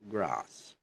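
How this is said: The vowel is a long broad 'ah'. "So in British"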